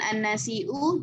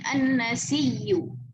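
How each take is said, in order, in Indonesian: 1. Hamzah diucapkan sebagai bunyi henti glotal. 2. Hamzah berubah menjadi bunyi y ganda. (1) "bukan an-nasiu" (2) "mengibdalkan hamzahnya dengan ya kemudian idghamkan"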